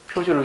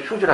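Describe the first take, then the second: First: The word begins with a p sound. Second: The word begins with an h sound. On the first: The speaker calls it right. "피읍으로 적어야 되는데" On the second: The speaker calls it wrong. "하기도 안 되고"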